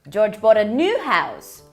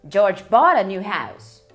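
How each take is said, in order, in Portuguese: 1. A palavra new tem a ênfase mais forte. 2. A palavra bought tem a ênfase mais forte. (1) "uma casa nova e não uma casa velha" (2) "ele comprou uma casa nova, ele não ganhou"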